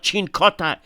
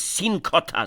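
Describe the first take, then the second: First: The name begins with a 'ch' sound. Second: The name begins with an 's' sound. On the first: The speaker calls it wrong. "it's not Chincota" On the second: The speaker calls it right. "it's Sincota"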